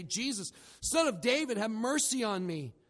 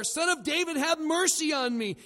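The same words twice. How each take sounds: First: Raised, high-pitched plea for mercy; crying out. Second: High, loud shouted plea; crying out louder. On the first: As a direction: call out like a blind beggar in the crowd. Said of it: "he began to cry out". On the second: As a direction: yell it over the crowd, desperate to be heard. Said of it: "kept crying out all the more". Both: Retold or imitated.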